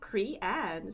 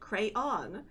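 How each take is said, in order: First: It is said in a regional way, sounding like Crean. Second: It is said with a slightly rolled R. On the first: Someone from another state says it this way. "Muffy says crayon in kind of an odd way due to state she's from" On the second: The speaker says it this way. "with a slight roll in the R"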